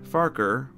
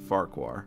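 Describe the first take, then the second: First: The name ends with a plain ker sound. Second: The name ends with a kwar sound. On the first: This is the pronunciation from the original book narrations. "the original pronunciation is Farker, sort of like Fokker" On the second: This is the pronunciation used in the TV show. "as it looks like it's spelt"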